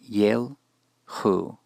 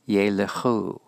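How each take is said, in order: First: The schwa is silent, giving two syllables. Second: The schwa is voiced, giving three syllables. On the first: The speaker calls it wrong. "not yelchu" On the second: The speaker calls it right. "this will cause the schwa after the lamed to be vocal"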